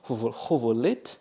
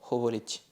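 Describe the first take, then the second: First: The final t is hard. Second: The final t is softened. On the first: The speaker calls it wrong. "au lieu de dire hovolet" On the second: The speaker calls it right. "ça adoucit la consonne"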